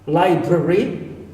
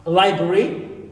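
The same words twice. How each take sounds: The two takes are said the same way.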